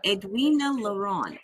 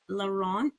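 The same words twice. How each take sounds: First: Laurent said the French way, nasal final vowel, silent t; French accent on name. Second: Laurent? said the French way, lo-RAHN, asked with a rising tune; checking French pronunciation. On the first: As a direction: say Edwina Laurent with a French ending, lo-RAHN. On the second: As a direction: try Laurent in French, nasal end, checking if it's right. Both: Real, not acted. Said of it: "you said it perfectly with the accent".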